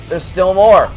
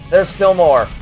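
No difference in how they are said.

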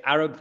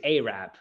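First: ARAB said as A-rub, short first vowel; British pronunciation. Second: ARAB said as AY-rab; American pronunciation. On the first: Contrasting English with American speech, A-rub. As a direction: say Arab with the "a" of "cat". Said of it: "we say Arab". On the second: Showing how Americans say it, AY-rab. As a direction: say Arab with a long "ay" up front. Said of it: "they say Arab". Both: Shown as a demonstration.

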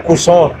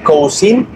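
First: "cousin" said "ku-zon", French style; French pronunciation. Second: "cousin" read as written, like "kou-sin"; read as spelled. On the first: Teacher correcting spelling to real pronunciation, French style. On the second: Teacher reading the written form first, spelling-style. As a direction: say "cousin" as it looks on the page. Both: Shown as a demonstration. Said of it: "pero se pronuncia".

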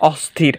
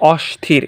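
First: অস্থির with dental s before th, not sh. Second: Wrong অস্থির, a hushing sh in place of s. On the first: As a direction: say অস্থির with a clear s, "osthir". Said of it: "হচ্ছে কেমন?". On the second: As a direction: say অস্থির with sh, "oshthir". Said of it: "এরকম না হয়ে". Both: Shown as a demonstration.

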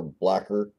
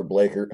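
First: "blacker" with a short A as in black; alternate pronunciation. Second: "Blaker" with a long A; alternate pronunciation. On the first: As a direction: say "blacker" to rhyme with slacker. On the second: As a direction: say "Blaker" to rhyme with baker. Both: Shown as a demonstration. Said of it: "however you wanna say it".

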